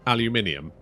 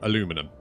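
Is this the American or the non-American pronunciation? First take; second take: non-American; American. First: It uses the non-American pronunciation of the word. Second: It uses the American pronunciation of the word. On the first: "how everyone in the world says aluminium" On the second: "the Americans go aluminum"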